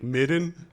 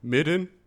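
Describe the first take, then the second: First: The middle consonant is a soft d-like sound. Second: The middle consonant is a soft d-like sound.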